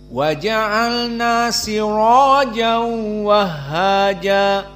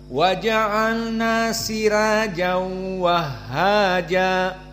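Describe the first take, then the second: First: The r is said heavy and full-mouthed. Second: The r is said light and thin. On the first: This follows the majority reading. "mereka sepakat dengan tafkhim ra" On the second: This follows the Warsh reading. "dibaca dengan tarqiq"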